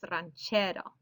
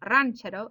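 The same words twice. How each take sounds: First: The stress falls on the middle syllable. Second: The stress falls off the middle syllable. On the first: The speaker calls it right. "second to last syllable is getting that stress" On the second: The speaker calls it wrong. "It's not ranchero"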